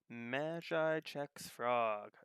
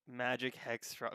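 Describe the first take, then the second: First: The c sound starts the second word. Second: The c sound ends the first word. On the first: The speaker calls it wrong. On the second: The speaker calls it right.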